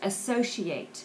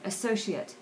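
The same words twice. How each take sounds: First: The word has the verb form's vowel shade. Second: The word has the noun form's vowel shade. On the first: It is used as a verb. "So you hear that's pronounced associate" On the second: It is used as a noun. "there's a little varying shade there"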